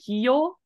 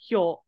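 First: An extra 'ee' vowel comes between h and yo. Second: The h glides straight into yo, no extra vowel. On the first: The speaker calls it wrong. "there were a couple of times you went hyo" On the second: The speaker calls it right. "but it's hyo. It's H yo. There's no E sound"

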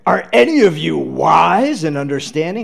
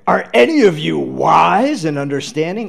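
First: It sounds accusing and challenging. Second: It sounds accusing and challenging.

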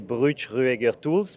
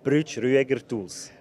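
First: The name is said with French pronunciation. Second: The name is said with German pronunciation.

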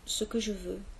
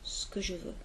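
First: 'Ce que' is said in full, two syllables. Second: 'Ce que' is contracted into one syllable.

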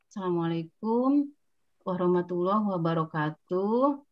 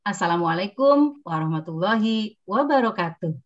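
First: The greeting is drawn out very slowly. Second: The greeting is spoken at an even, moderate speed. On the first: The listener gets bored and impatient. The speaker calls it wrong. "Tidak boleh juga lambat. Kalau lambat yang mendengarkan bosan" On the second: The listener hears it clearly without waiting. The speaker calls it right. "Bukan pelan, sedang"

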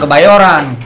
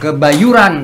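First: The third syllable has an 'o' vowel. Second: The third syllable has an 'u' vowel. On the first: The speaker calls it wrong. "Jadi bukan kebayoran ya?" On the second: The speaker calls it right.

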